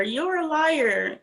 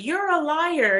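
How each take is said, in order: First: Very slow, stretched-out you're a liar; drawn-out accusation. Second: Much higher, jabbing accusation; mock accusation. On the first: Retold or imitated. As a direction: drag out each word of you're a liar. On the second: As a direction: call her a liar, pointed and high. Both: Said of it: "when Stacey's like".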